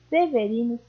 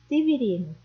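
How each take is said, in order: First: The first two vowels sound like e. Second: The first two vowels sound like i.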